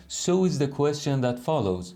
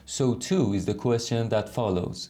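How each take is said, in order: First: Said in the usual way. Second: Too leaned on in so too is; stress on too. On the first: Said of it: "یعنی بگیم چی؟". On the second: Shown as a demonstration. Teacher contrasting with the version without too, stressing too. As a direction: lean on the word too. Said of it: "به جای اینکه بگیم".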